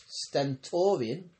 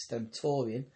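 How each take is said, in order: First: "stentorian" drawn out slowly with a questioning rise; stumbling over "stentorian" with a rising tune; slow misread. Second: "stentorian" said plainly as sten-TOR-ian; corrected pronunciation. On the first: Reader unsure how to say "stentorian". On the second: Reader corrects the misread word "stentorian". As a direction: narrator fixes the misread "stentorian". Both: Shown as a demonstration. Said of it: "no, that means stentorian".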